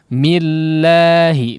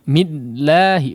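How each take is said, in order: First: The doubled L is pressed briefly, then released smoothly. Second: The doubled L is cut off, stopping the sound. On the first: The speaker calls it right. "millahi hanya sekedar menghentak kemudian dilepaskan kembali" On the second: The speaker calls it wrong. "Sebagian orang seperti itu"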